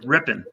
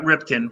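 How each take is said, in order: First: The name has no k sound in the middle. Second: The name has a k sound in the middle. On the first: The speaker calls it right. "Ripping, ripping, not Ripkin, ripping" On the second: The speaker calls it wrong. "not Ripkin"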